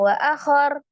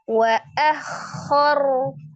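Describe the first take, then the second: First: The kh sound is cut short abruptly. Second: The kh sound is drawn out with friction. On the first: The speaker calls it wrong. "jangan langsung" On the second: The speaker calls it right. "Kho sifatnya rolah"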